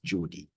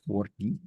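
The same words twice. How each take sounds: First: The name is said with a Catalan pronunciation. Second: The name is said with a Spanish pronunciation. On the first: "a bit of Catalan" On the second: "as opposed to"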